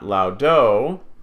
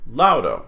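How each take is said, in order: First: The stress is on the last syllable. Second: The stress is on the first syllable. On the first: The speaker calls it wrong. "this word is not laudo" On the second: The speaker calls it right. "it's laudo"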